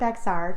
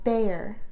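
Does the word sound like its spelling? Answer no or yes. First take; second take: yes; no. First: It is said just as it is spelled. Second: It is said unlike its written spelling. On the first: The speaker calls it wrong. "not Bexar, despite how it looks" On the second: The speaker calls it right. "is pronounced Bexar"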